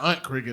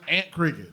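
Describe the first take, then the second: First: Aunt is not pronounced like the word ant. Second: Aunt is pronounced like the word ant. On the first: The speaker calls it wrong. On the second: The speaker calls it right. "it would have been A N T because that's Aunt Cricket"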